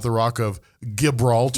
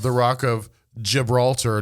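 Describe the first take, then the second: First: Gibraltar begins with a hard G sound. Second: Gibraltar begins with a soft J sound. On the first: The speaker calls it wrong. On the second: The speaker calls it right.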